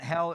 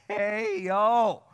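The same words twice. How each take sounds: First: Said in the usual way. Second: "hey, yo" stretched into two syllables, higher; two-syllable hell. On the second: Shown as a demonstration. Preacher showing how country folk said hell. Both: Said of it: "we said hell with two syllables".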